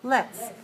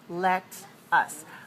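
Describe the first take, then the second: First: It is said as one short contracted word. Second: It is said as two separate full words. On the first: The speaker calls it right. "We always say let's" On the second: The speaker calls it wrong. "But we rarely say that in spoken English"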